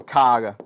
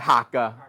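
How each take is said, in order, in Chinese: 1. 第一個音節係k音開頭。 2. 第一個音節係h音開頭。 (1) "應該讀卡噶" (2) "我聽過人讀客誒客噶"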